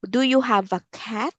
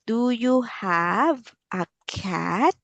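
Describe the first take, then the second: First: Quick, casual question; fast question. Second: Slow, clear, drawn-out question; slow teacher voice. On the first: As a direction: toss it off quickly. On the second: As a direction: say it slowly for a child. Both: Shown as a demonstration. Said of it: "repeated slower".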